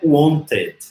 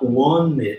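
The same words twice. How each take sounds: First: The t after the n is clearly pronounced. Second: The t after the n is dropped. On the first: The speaker calls it wrong. "aqui não é wanted" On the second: The speaker calls it right. "A gente vai falar wanted, aqui vira um izinho"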